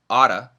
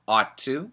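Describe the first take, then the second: First: The words run together quickly into one. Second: Both words are said clearly and separately.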